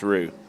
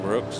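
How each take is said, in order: First: The surname ends on a plain vowel. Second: The surname ends with a ks sound.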